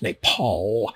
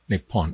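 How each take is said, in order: First: The word ends with an l sound. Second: The word ends with an n sound. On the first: This is how the name is usually said. "there's no N at the end of it" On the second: This is how people in Thailand say it. "in Thailand, it's pronounced Nepal"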